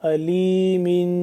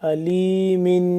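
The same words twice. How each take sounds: The two takes are said the same way.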